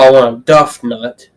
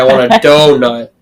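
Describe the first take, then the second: First: The first syllable rhymes with 'rough'. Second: The first syllable rhymes with 'go'. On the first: The speaker calls it wrong. "you don't go" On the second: The speaker calls it right. "You say"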